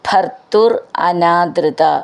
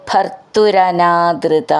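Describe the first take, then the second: First: The two words are said separately. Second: The two words are run together.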